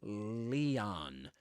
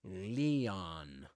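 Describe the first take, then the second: The two takes are said the same way.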